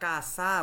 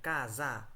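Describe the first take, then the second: First: The middle consonant is a hissing s sound. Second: The middle consonant is a buzzing z sound. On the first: The speaker calls it wrong. "আমরা কাসা বলি না" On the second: The speaker calls it right. "আমরা বলি কাজা"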